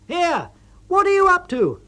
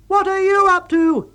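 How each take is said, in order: First: High, loud exasperated call across the tent; loud, high, irritated shout; angry call. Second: High, loud indignant throw-back; loud, high snapping retort; angry retort. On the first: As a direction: yell across at your clumsy partner. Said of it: "you call out". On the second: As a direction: fling the question right back. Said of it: "he retorts". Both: A narrator's reading.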